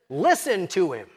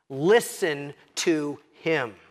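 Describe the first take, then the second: First: Said in the usual way. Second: Slow, weighty command, Listen stressed; imperative command. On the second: Shown as a demonstration. Preacher voices God commanding the disciples, slow and firm. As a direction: lean hard on Listen, drawn out and firm. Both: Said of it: "in the imperative voice".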